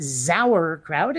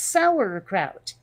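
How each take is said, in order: First: The word starts without a plain s sound. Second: The word starts with a plain s sound. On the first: "It's not sauerkraut" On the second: "we start it with an S"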